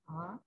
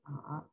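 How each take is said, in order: First: The syllable is said in the second tone. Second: The syllable is said in the third tone. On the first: "second tone" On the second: "third tone"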